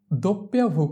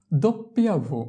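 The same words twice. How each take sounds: The two takes are said the same way.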